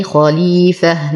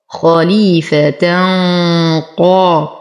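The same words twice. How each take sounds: First: Slow خليفة ending in a breathed h; stop on ha. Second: Slow خليفة قا joined with a hummed "tan"; heavy ikhfa. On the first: Teacher showing the pause form, خليفة ending in h. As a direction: close خليفة on h, not t. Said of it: "نقف على التاء المربوطة دائمًا بها". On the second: Teacher showing the joined form, خليفة قا with heavy ghunna. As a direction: hum a thick ghunna from خليفة into قا. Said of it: "ولو وصلنا تولد لدينا تنوين". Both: Shown as a demonstration.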